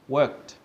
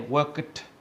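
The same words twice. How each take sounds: First: The ending is said as a short 't' sound. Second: The ending is said as a separate 'ed' syllable. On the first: The speaker calls it right. "sounds like a T instead of an E D" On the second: The speaker calls it wrong. "we don't say worked or watched or shopped"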